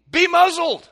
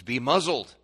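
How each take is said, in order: First: Very high, loud bellow; full-force commanding shout. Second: Louder, firm rebuke to demons; stern, contained command. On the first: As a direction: roar the order at wind and waves. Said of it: "he says to the wind and the waves". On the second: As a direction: order it with raised volume. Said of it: "He would say to demons". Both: Acted.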